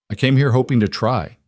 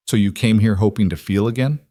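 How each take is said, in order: First: Higher start, falling firmly onto "try"; correcting. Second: "again" rising at the end as a question. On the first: Husband correcting what he was hoping for, falling on "try". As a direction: correct them, landing on "try" with a falling tune. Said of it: "Jack corrected". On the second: Wife asking husband why he came, questioning rise on "again". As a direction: ask it, lifting the voice on "again". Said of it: "Nora asked". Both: A narrator's reading.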